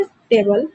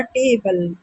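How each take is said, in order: First: Said in the usual way. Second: table with a long, stressed first syllable टे. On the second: Shown as a demonstration. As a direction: lean on टे in table. (Table के टे पर ज़ोर) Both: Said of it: "आपको stress देना पड़ रहा है".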